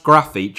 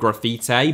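First: The name has a Brazilian Portuguese pronunciation. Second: The name has an anglicized, non-Brazilian pronunciation. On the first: The speaker calls it right. "his name is pronounced Grafić in Brazilian Portuguese" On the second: The speaker calls it wrong. "not Grafite"

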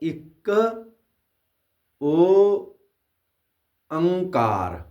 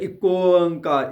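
First: It is said in three separate parts. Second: The first word merges into the next as one. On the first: The speaker calls it right. "ਇਸ ਤਰ੍ਹਾਂ ਸਹੀ ਹੈ" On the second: The speaker calls it wrong. "ਕਈ ਇੱਕੋ ਓਅੰਕਾਰ ਇੱਕੋ ਕਰ ਦਿੰਦੇ ਨੇ"

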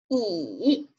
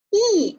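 First: The pitch dips low then rises. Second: The pitch falls sharply from high to low. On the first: "三声读乙" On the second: "四声呢读乙啊"

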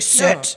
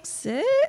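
First: The word sounds harsh and intimidating. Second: The word sounds pleading and uncertain. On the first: The speaker is trying to scare the dog into obeying. "you don't need to be like intimidating" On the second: The speaker is begging the dog to obey. "So if you're asking"

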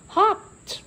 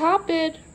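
First: The ending is said as a short 't' sound. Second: The ending is said as a separate 'ed' syllable. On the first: The speaker calls it right. "Sounds like that T" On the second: The speaker calls it wrong. "we don't say hopped"

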